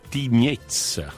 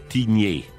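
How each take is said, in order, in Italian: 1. La parola finisce con un suono z udibile. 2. La parola finisce con una vocale, senza z. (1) "è Tignez, no? ... La Z alla fine" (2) "tu hai pronunciato Tignè"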